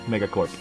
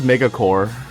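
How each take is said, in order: First: The word ends in 'corp' with a final p. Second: The word ends in 'core' with no final p. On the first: The speaker calls it right. "like a corporation" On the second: The speaker calls it wrong. "He says Megacore"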